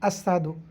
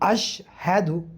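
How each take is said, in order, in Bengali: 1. মাঝের ব্যঞ্জনধ্বনিটি একটি সাধারণ 's' ধ্বনি। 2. মাঝের ব্যঞ্জনধ্বনিটি একটি হালকা শ্বাসযুক্ত 'sh' ধ্বনি। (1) "অশুদ্ধ" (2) "বাতাস বের হইছে"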